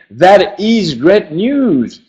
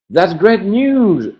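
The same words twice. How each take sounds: First: That is great news, with That and is said as two full separate words; uncontracted full form. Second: Said in the usual way. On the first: Shown as a demonstration. Teacher shows the form nobody says in speech. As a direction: pronounce That is fully, unnaturally. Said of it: "On n'entendrait jamais". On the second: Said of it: "On n'entendrait jamais That is great news".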